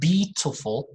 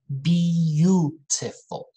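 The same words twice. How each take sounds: First: No 'yoo' sound follows the b. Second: A 'yoo' sound follows the b. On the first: The speaker calls it wrong. "not beautiful" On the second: The speaker calls it right. "but beautiful"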